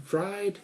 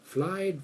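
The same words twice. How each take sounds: First: "fried" said high with a clear R after the F; R kept in. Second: "Fried" said high with an L, like "flied". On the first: Speaker contrasting sounds Japanese learners confuse, "fried" with an R. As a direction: pronounce the R in "fried", pitched up. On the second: Speaker imitating Japanese learners' confusion, "Fried" pronounced as "flied". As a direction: swap the R in "Fried" for an L. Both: Shown as a demonstration. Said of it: "it all sounds the same to them".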